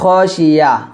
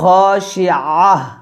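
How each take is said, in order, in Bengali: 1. মাঝের ব্যঞ্জনটি সাধারণ y শব্দ। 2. মাঝের ব্যঞ্জনটি গভীর গলার শব্দ। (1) "এখানে আমরা যে ভুলটা করি সেটা হচ্ছে খাশিয়া" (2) "বলতে হবে খাশিআহ, আইন হাজবর আহ"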